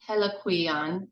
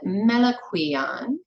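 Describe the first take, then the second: First: The word begins with an H sound. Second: The word begins with an M sound. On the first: "Della Prince's pronunciation is Heliquion" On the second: "Jerry James said Meliquion, ... more M than H"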